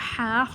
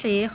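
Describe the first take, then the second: First: It is said with an Arabic pronunciation. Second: It is said with an Urdu pronunciation. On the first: The speaker calls it right. "अरबी लहजे में अदा करें" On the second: The speaker calls it wrong. "Urdu तलफ़्फ़ुज़ से परहेज़ करें"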